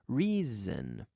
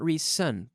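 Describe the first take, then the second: First: The middle consonant is a buzzing Z sound. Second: The middle consonant is a hissing S sound. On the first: The speaker calls it right. "the S sounds a little bit like a Z" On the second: The speaker calls it wrong. "It's not reason"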